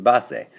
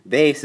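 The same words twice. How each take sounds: First: Base said the Spanish way as two syllables, bah-seh; Spanish pronunciation. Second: Said in the usual way. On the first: Shown as a demonstration. Teacher showing Spanish speakers the word, says Base as bah-seh. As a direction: Base spoken as Spanish bah-SEH, not English bayss. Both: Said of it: "You just have to say it different".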